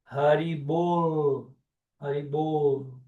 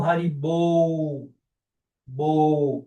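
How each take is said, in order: First: Haribol slowly, held on a true L; final L pronounced. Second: Haribol and bol ending in a U glide. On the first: Teacher corrects a common error, sounded final L. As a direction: end Haribol with the tongue up on L. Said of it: "com L". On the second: Teacher shows the common mistake, final U. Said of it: "bol com U". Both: Shown as a demonstration.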